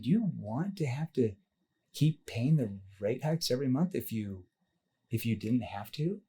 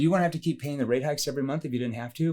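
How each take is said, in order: First: The question is asked slowly, with measured pacing. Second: The question is rushed out quickly and evenly. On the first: The speaker calls it right. "I'm verbal pacing that question out" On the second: The speaker calls it wrong. "I'm saying the question too fast"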